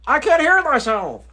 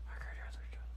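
First: "I can't hear myself" called out loud and high, "hear" punched; raised voice. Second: "I can't hear myself" in a bare soft whisper. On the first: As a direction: shout "hear" in frustration. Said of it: "you raising your voice". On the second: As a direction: breathe "hear" without voice. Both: Real, not acted.

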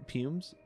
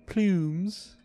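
First: "pumes" said with no l, as a puzzled question; trying out "pumes" with no l sound, rising like a doubt; mispronounced word. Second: "Plumes" said firmly with a clear pl at the start; corrected word. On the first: To viewers, reading the game text and catching a misreading, unsure slip. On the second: To viewers, correcting his own misreading of the game text, firm correction. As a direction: fix it to "Plumes", landing the l clearly. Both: Real, not acted.

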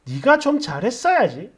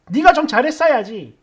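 First: Mild mock reproach with a questioning rise; disapproving quote. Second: Quoted mother's mild scolding, falling at the end; matter-of-fact telling-off from a mother; mild maternal reproach. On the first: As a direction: quote it back critically, lifting the end. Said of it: "이거 뭐야?". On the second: Retold or imitated. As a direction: chide lightly and let the end drop. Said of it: "이렇게 말 한마디 한 게 전부인데".

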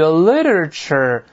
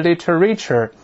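First: "literature" stressed on LIT, the rest reduced; correct pronunciation of literature. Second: "literature" misread with a full "ree"; wrong pronunciation of literature. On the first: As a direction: say "literature" as LIT-ruh-chuh. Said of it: "这个注意啊". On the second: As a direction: say "literature" as lit-uh-REE-chur. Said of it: "不是literature". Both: Shown as a demonstration.

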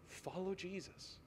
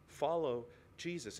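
First: Soft, near-breathless appeal, much softer; hushed plea. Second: Said in the usual way. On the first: Real, not acted. Pastor pleading with his congregation, hushed and soft. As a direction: lean in and plead quietly. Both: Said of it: "I plead with you".

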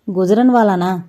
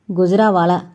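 First: "గుజరన్వాలానా" with a full "న్" sound, as a question; questioning "గుజరన్వాలానా", n fully sounded rather than nasalised; mistaken pronunciation. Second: "గుజరావాలా" with "రా" nasalised, no full n; careful imitation of the native "గుజరావాలా"; imitated nasal pronunciation. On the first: Acted. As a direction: put a hard n before "వాలా" in "గుజరన్వాలానా". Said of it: "ముక్కుతో పలకండి". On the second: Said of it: "Rambabu ఉచ్చారణని అనుకరించి".

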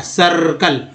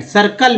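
First: सर्कल with a held uh and r; pronunciation demo. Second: Said in the usual way. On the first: Shown as a demonstration. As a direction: draw out the first part of सर्कल. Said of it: "अ के रूप में हो रहा है". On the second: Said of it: "आई का उच्चारण स".

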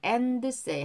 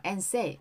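First: "and say" with an extra "deu" syllable after and; over-pronounced d. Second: "and say" with the d dropped, like "en say"; weak d. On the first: ("and say"를 앤드세이처럼 드를 살려서) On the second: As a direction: run "and" straight into "say" without the d. ("and say"에서 드를 빼고 앤세이처럼) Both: Shown as a demonstration. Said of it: "드 발음 약하게".

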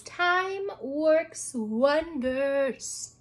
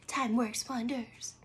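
First: Drawn out very slowly; a slow, deliberate reading of a calendar quote. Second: Soft, breathless whisper; hushed whispered echo of the quote. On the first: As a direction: read it slowly, savouring each word. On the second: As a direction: whisper it back like a secret. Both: Shown as a demonstration.

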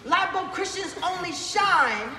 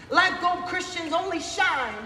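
Both takes have the same delivery.

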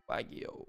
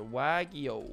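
First: Whispering "Wagyu" under his breath; breathy, voiceless "Wagyu" to himself; whispered. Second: Said in the usual way. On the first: Real, not acted. Repeating addon name to himself.

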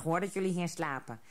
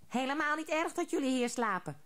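First: Put-on plain friendly old troll, barely changed; lightly voiced old troll. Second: Higher, odd little troll voices together; troll chorus. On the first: Old troll reassures the hare and rabbit, lightly voiced old troll. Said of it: "De oude trol grinnikte". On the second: Troll crowd echoing the old troll, higher chorus voice. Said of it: "zeiden alle andere trollen tegelijk". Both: A narrator's reading.

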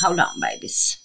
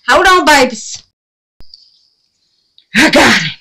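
First: Whispered. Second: Much higher, loud excited cry; loud triumphant. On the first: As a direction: breathe it gently to the paints. Talking softly to paint "babies. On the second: To her paints while killing the bug, loud triumph. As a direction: yell it as she swats the bug. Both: Real, not acted.

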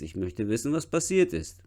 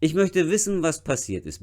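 First: Dropped to a whisper. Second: Said in the usual way. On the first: Shown as a demonstration. Teacher whispering the patient's question to the class. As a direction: breathe the words out without voice. Teacher rereads the line much softer.

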